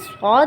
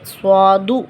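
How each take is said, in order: First: The word ends on a bare consonant. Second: The word ends with an added u vowel. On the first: The speaker calls it right. "हम कहेंगे ये स्वाद है" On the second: The speaker calls it wrong. "स्वादू ऐसे भी नहीं पढ़ सकते"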